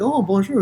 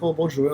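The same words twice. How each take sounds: First: Much higher, lifted "bonjour" with a rise on "Oh"; delighted sing-song hello; bright eager bonjour. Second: Said in the usual way. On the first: Retold or imitated. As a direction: greet back like a cheerful local. The staff greeting him back eagerly.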